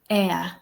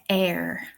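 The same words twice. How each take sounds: First: The word ends without an R sound. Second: The word ends with an audible R sound.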